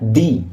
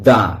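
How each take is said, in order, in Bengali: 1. স্বরধ্বনিটি একটি দীর্ঘ 'ee' ধ্বনি। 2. স্বরধ্বনিটি একটি হ্রস্ব 'uh' ধ্বনি। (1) "টি এইচ ই এর উচ্চারণ হয় কি না, দি" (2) "কনসোনেন্ট সাউন্ডের আগে ... এর উচ্চারণ হবে দা"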